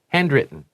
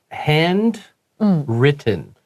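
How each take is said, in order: First: It is said very fast, the t dropped. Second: It is said slowly and clearly.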